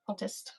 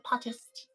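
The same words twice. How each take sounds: First: The word is said in a British accent. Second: The word is said in a plain accent.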